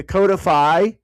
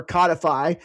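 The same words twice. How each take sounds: First: "codify" with a long o, COH-dih-fy; first syllable of "codify" rhymes with "go"; long-o pronunciation. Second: "codify" with a short o, KAH-dih-fy; first syllable of "codify" like the fish, cod; short-o pronunciation. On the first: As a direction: say "codify" opening like "code". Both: Shown as a demonstration. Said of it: "I've heard it both ways".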